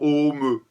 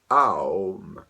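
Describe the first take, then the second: First: It is said with a single o vowel. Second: It is said gliding from a through u. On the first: "c'est la première version" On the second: "cette deuxième prononciation possible, on l'écrit A U M"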